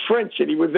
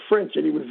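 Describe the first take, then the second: No difference in how they are said.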